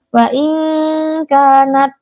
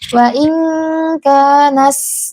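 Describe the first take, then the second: First: The final t has no breath after it. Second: The final t hisses like an s sound. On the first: "jangan lupa diberikan sifat hamasnya, mengalirnya nafas, jangan" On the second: "itu berlebihan hamasnya"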